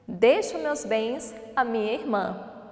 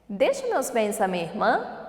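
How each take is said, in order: First: The voice falls at the end, a statement. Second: The voice rises at the end, a question.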